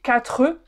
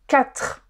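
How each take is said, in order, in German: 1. Der Vokal am Ende ist deutlich zu hören. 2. Der Vokal am Ende ist fast stumm. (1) "ich sage nicht quatre" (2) "Dieses E am Ende hört man fast nicht"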